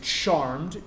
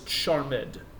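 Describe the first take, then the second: First: The ending is silent, giving one syllable. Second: The ending is voiced, giving two syllables. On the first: The speaker calls it wrong. "you don't say charmed" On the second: The speaker calls it right. "you pronounce it"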